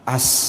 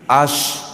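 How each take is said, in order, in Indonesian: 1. Kata ini berakhir dengan bunyi s. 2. Kata ini berakhir dengan bunyi sh. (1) "as kata dia" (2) "shin pak"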